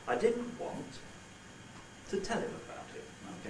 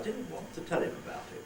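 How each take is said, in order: First: There is a pause after want. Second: There is no pause after want. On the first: "with a little pause" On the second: "But I don't have to pause there if I don't want to"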